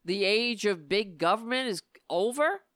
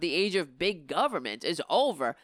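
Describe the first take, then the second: First: Scornful rising question; mocking quote. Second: Said in the usual way. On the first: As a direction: quote it back in disbelief. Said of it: "echoing that shit".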